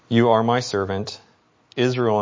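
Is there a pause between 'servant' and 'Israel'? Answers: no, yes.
yes. A pause separates servant from Israel. Israel is where the servant shows God's glory.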